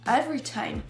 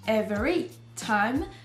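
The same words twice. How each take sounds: First: A syllable is skipped in the reduced form. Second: Every syllable is fully pronounced. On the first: The speaker calls it right. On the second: The speaker calls it wrong. "On ne dira pas"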